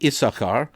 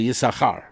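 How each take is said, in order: First: The stress falls early, on the first syllable. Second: The stress falls late, on the second part. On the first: "English we say" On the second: "in Hebrew the emphasis goes on the second part of the word"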